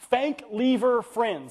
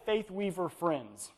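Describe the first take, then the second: First: The name is said as Fank Lever Friends. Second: The name is said as Faith Weaver Friends. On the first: The speaker calls it wrong. "what's he say? Fank Lever Friends" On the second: The speaker calls it right. "cannot say Faith Weaver Friends"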